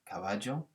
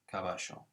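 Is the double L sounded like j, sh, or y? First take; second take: j; sh. First: The double L sounds like a j. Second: The double L sounds like sh. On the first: This is how it is said in parts of South America. "In parts of South America, it's a j" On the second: This is how it is said in Buenos Aires and Uruguay. "in Buenos Aires... it's a sh"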